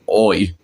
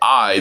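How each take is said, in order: First: It is said in a Cockney accent. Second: It is said in a standard accent. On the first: "they say it like oi" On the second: "whenever they say I"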